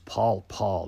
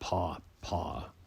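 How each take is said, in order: First: The name is said with a clear L sound. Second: The name is said without any L sound. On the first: The speaker calls it right. "it's Paul Paul" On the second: The speaker calls it wrong. "not Paw Paw"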